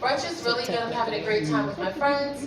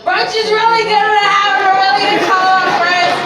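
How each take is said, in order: First: It is said in a composed, sober voice. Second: It is said in a slurred, drunk voice.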